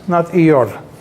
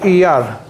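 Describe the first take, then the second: First: The last vowel is a rounder 'aw' sound. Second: The last vowel is an open 'ah' sound. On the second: "read with a patach"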